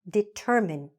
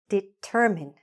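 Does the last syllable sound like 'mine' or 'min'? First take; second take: min; min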